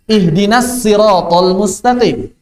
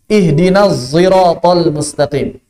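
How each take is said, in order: First: The s in sirat is a light plain s. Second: The s in sirat is blended with z. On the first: This is another valid recited reading. "Pakai sin saja" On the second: This is a third valid recited reading. "shad dicampur sama zai"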